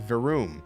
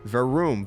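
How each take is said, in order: First: The second vowel is a long 'oo' sound. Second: The same.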